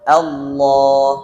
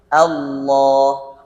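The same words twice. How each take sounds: First: The first vowel sounds light and thin. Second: The first vowel sounds light and thin.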